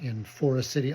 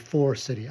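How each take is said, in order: First: The name is said fully and carefully. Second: The name is clipped in the local way.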